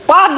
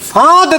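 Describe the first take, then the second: First: The word begins with a plain p sound. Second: The word begins with an f-like sound. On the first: The speaker calls it wrong. "পাদ না" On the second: The speaker calls it right. "ফাঁদ দেখনি"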